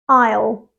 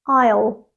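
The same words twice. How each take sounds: No difference in how they are said.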